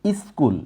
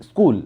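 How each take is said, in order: First: স্কুল said iskul with an added i before the s; common mispronunciation. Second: স্কুল said cleanly as skul, no vowel before the s; correct pronunciation. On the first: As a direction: show the popular slip: iskul. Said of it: "অনেকেই এটা উচ্চারণ করে". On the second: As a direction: model the right way: skul. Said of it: "স্কুল উচ্চারণটা এরকম হবে". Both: Shown as a demonstration.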